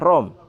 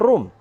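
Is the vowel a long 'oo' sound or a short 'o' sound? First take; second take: short o; long oo. First: The vowel is a short 'o' sound. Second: The vowel is a long 'oo' sound. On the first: The speaker calls it wrong. "akan dia baca rom" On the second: The speaker calls it right. "tapi bacanya room"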